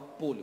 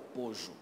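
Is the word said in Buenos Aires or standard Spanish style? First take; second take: standard; Buenos Aires. First: The double L is said as a plain y-like sound. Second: The double L is said as a zh-like sound. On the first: "Não fala polho" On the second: "fala pojo"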